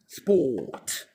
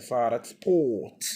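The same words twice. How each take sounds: First: سبوت sehr langsam, langes O, ohne R; سبوت gedehnt vorsagen; slow model word. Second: سبوت ohne R, langes O; سبوت langsam vorsagen; teacher modeling. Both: Shown as a demonstration. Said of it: "ال R ما يلفظ سايلنت".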